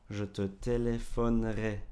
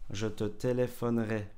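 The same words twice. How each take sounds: Both takes have the same delivery.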